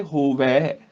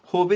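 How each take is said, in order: First: ਹੋਵੇ drawn out as hovai. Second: ਹੋਵੇ said hove, closed e. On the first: Teacher giving the correction, ਹੋਵੇ ending in long ai. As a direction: open the final vowel of ਹੋਵੇ to ai. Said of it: "ਬਜਾਏ ਹੋਵੇ". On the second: Teacher showing what to replace, ਹੋਵੇ ending in e. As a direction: end ਹੋਵੇ on a narrow e. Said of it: "ਹੋਵੇ ਦੀ ਬਜਾਏ". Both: Shown as a demonstration.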